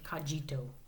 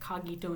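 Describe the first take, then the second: First: The G is pronounced as a soft G. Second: The G is pronounced as a hard G. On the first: The speaker calls it wrong. "instead of" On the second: The speaker calls it right. "I think it's better with the hard G"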